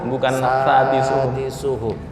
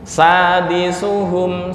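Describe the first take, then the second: First: The word begins with a 'th'-like sound. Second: The word begins with a clean 's' sound. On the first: The speaker calls it wrong. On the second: The speaker calls it right.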